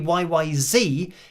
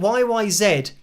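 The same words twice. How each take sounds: First: The letters are said the US way. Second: The letters are said the Canadian way. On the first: "a U S thing" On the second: "how people say it in Canada"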